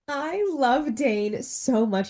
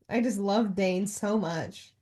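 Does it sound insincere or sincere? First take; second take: sincere; insincere. First: It sounds earnest and sincere. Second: It sounds flat and insincere.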